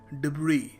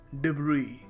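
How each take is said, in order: Both takes have the same delivery.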